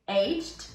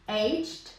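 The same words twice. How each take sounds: First: It is said in an American accent, one syllable. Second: It is said in an American accent, one syllable.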